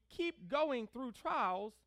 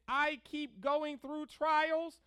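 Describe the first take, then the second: First: "keep going" stressed, "trials" left lighter. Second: Loud, slow line landing hard on "trials"; stress on trials. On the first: Preacher showing the congregation the better emphasis, stress on "keep going". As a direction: lean on "keep going", slowly and deliberately. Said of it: "we should put the emphasis on keep going". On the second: Preacher showing the congregation their wrong emphasis, stress on "trials". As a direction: lean on "trials", stretched out slowly. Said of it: "we put the emphasis on the trials". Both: Shown as a demonstration.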